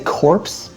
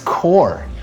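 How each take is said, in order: First: The word ends with a p-s sound. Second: The word ends without a p-s sound. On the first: The speaker calls it wrong. "Did you say corpse?" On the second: The speaker calls it right. "It's core. That's how you pronounce it"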